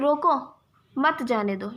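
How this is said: The pause comes after 'रोको'.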